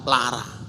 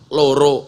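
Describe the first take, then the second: First: It is said in Ngapak, with a-sounds. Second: It is said in Javanese, with o-sounds.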